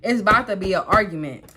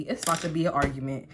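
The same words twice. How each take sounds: First: "It's about to be an argument" punched louder; louder, emphatic "It's about to be an argument"; emphatic repeat. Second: Said in the usual way. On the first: Retold or imitated. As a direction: hit "It's about to be an argument" hard, as a warning.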